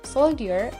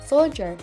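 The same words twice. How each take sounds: First: The middle has a separate d and y. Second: The middle has a single j sound.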